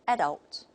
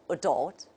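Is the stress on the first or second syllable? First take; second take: first; second. First: The stress is on the first syllable. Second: The stress is on the second syllable. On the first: This is the British pronunciation. "the stress is on the first syllable" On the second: This is the American pronunciation. "the American model will just take the opposite"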